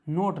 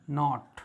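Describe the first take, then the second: First: नोट with a round "o", as in "note"; wrong reading नोट. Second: नॉट with an open "aw" vowel, like "not"; correct reading नॉट. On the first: Teacher warning learners off a misreading, round-o नोट. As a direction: say नोट with a closed o vowel. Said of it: "नोट नहीं". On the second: Teacher correcting learners' reading, open-vowel नॉट. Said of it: "नोट नहीं, नॉट". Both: Shown as a demonstration.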